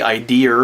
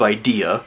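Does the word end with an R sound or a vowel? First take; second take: R sound; vowel. First: The word ends with an added R sound. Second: The word ends on a plain vowel. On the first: "some people say idea" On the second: "there's no R at the end of idea"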